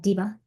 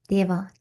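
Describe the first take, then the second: First: The first vowel sounds like 'ee'. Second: The first vowel sounds like 'ay'. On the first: "Diva won't sound like Diva" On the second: "If you said it like you were from South India"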